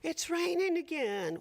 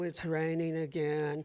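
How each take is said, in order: First: It sounds cheerful and upbeat. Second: It sounds disappointed and complaining. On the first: The rain is welcome. The speaker calls it right. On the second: The rain is unwelcome. The speaker calls it wrong. "making it a bad thing and saying, oh"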